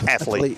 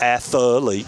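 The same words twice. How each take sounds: First: The word is said with two syllables. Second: The word is said with three syllables. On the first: The speaker calls it right. "athlete has two syllables" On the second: The speaker calls it wrong. "It's not athlete"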